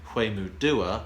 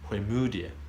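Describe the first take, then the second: First: The stress is on the syllable du. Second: The stress is on the syllable mu. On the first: The speaker calls it wrong. "I always said Huemudua, rather than the, the do" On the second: The speaker calls it right. "the stress is on the mu"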